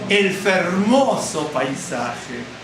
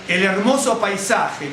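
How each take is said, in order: First: The second word begins with an f sound. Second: The second word begins without an f sound. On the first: This is the old form. "¿cómo dicen? El fermoso paisaje. Porque la H no se ponía" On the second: This is the modern form. "no dicen eh, eh, el hermoso paisaje"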